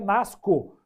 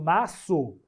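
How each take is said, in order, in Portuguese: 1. A consoante do meio é som de k. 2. A consoante do meio é som de s. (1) "não dá para usar o C, né? Senão fica nasco" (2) "eu estou usando o aqui"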